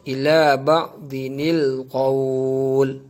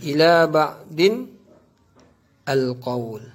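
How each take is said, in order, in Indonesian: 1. Disambung menjadi 'dinil' sebelum qawl. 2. Disambung menjadi 'din al' sebelum qawl. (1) "cara bacaan yang betul" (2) "Tapi cara baca itu ialah salah"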